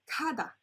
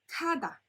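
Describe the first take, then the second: Both takes have the same delivery.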